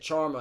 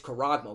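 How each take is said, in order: First: The word is said as two syllables, without "-ag-". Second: The word is said as three syllables, with "-ag-". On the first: The speaker calls it wrong. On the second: The speaker calls it right. "no, it's charagma"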